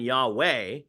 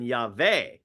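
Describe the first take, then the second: First: The middle consonant is a W sound. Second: The middle consonant is a V sound. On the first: The speaker calls it wrong. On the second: The speaker calls it right.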